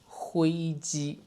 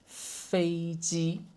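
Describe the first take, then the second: First: The word begins with an h sound. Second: The word begins with an f sound. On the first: "with this accent, it becomes 灰机" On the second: "the word for airplane"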